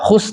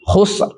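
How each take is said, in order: First: The word ends without an r sound. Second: The word ends with an audible r sound. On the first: The speaker calls it wrong. "tidak khus tapi ada arnya" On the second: The speaker calls it right. "Ra-nya ada"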